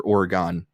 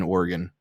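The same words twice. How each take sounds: First: Oregon with a full final vowel, like "OR-uh-gone"; alternative pronunciation. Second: Oregon with a weak final syllable, like "OR-uh-gun"; East Coast pronunciation. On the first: Offering the other side of a coastal debate, Oregon ending in "gone". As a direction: end Oregon on a clear "gone". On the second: Speaker from the East Coast naming the state, Oregon ending in "gun". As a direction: end Oregon on an unstressed "gun". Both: Shown as a demonstration. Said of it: "debate about how to pronounce it".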